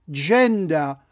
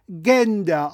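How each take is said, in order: First: The word starts with an English soft J sound. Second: The word starts with a German hard G sound. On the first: The word is treated as an English loanword. The speaker calls it right. "Gender kommt aus dem Englischen ... Deshalb spricht man es Gender" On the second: The word is read as if it were German. The speaker calls it wrong. "und nicht Gender"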